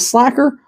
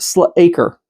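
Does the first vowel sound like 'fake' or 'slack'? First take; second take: slack; fake. First: The first vowel is short, as in slack. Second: The first vowel is long, as in fake.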